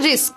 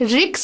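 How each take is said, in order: First: The word ends with an 'sk' sound. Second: The word ends with a 'ks' sound. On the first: The speaker calls it right. "উচ্চারণটা রিস্ক" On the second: The speaker calls it wrong. "প্রথম কথা রিক্স নয়"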